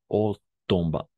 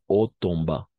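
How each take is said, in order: Both takes have the same delivery.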